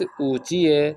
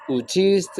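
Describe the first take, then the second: First: چیئے said as chie, final st replaced by a short e; everyday Tehrani چیئے, no t at the end; colloquial Persian. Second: چیست with the full final st; careful bookish چیست, ending clearly in st; formal written Persian. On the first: Teacher showing students how Iranians say it, colloquial Persian. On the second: Teacher showing students the written form, formal Persian. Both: Shown as a demonstration. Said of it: "وہ کہتے ہیں چیز کی جگہ چیئے".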